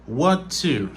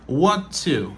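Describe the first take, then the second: The two takes are said the same way.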